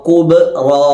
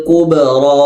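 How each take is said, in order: Both takes have the same delivery.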